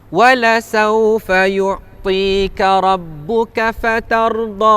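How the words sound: The final vowel is short, then the voice stops. The reading stops at this point. "Kalau kita wakaf, dia jadi dua harakat saja"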